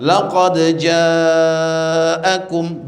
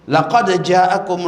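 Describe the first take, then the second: First: The vowel in ja'akum is drawn out long. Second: The vowel in ja'akum is cut short. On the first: The speaker calls it right. "bil maddi, dengan panjang" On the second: The speaker calls it wrong. "Ja'akum dia baca pendek"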